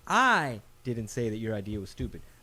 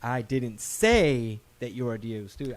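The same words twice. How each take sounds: First: The first word, I, is stressed. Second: The third word, say, is stressed.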